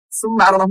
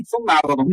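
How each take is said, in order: First: सुम्मा अरदहुम with a plain S; सुम्मा अरदहुम as summa, the wrong way; mispronounced consonants. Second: सुम्मा अरदहुम with tongue between teeth at the start; corrected consonants. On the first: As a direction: start सुम्मा with seen instead of th. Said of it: "सुम्मा अरदहुम नहीं". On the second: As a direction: say सुम्मा as thumma. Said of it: "सुम्मा अरदहुम है". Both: Shown as a demonstration.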